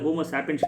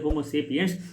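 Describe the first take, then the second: First: The first vowel of sapiens sounds like 'ah'. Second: The first vowel of sapiens sounds like 'ay'. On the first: The speaker calls it wrong. "ஆக்சுவலா அது homo சாப்பியன்ஸ் கிடையாது" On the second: The speaker calls it right.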